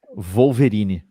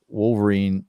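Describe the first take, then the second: First: The word begins with a V sound. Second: The word begins with a W sound.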